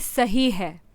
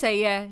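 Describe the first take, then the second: First: It is pronounced in a careful, formal way. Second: It is pronounced in a relaxed, everyday way. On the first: This is how it is said on television. "जैसे अब मैं TV पे होती हूँ तो मैं बोलूँगी" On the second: This is how it is said in everyday conversation. "लेकिन आम में बैठी बोलूँगी"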